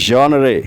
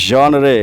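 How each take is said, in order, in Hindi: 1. यह नरम zhon ध्वनि से शुरू होता है। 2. यह नरम zhon ध्वनि से शुरू होता है।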